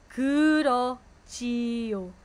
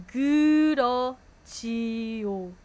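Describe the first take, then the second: The two takes are said the same way.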